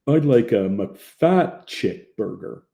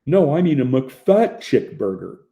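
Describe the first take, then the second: First: Very slow, dim-witted drawl; slow stupid drawl. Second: Louder, higher, slow oafish insistence; slow stupid drawl. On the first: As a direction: drag it out like an idiot. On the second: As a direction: drawl the correction loudly like a dolt. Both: A narrator's reading. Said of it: "In a slow, stupid drawl".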